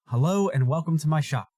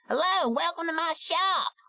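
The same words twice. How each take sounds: First: It is said in the speaker's own voice. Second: It is said in an impression of Dusty.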